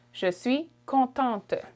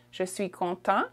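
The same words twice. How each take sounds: First: "contente" drawn out with a sounded final t; feminine t ending. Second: "content" ending on a nasal vowel, silent t; masculine French form. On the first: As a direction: slowly release the t ending of "contente". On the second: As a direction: leave the final t off "content". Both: Shown as a demonstration. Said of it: "We add the t".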